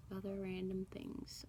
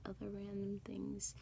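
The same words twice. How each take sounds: First: Said in the usual way. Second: The same words whispered with no voice. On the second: Real, not acted. Vlogger repeats herself in a thinking whisper. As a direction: drop to a whisper while thinking.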